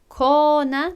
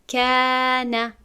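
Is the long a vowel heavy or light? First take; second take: heavy; light. First: The long a is full and heavy. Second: The long a is thin and light. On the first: The speaker calls it wrong. "نمیگوییم" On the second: The speaker calls it right. "پس میگوییم"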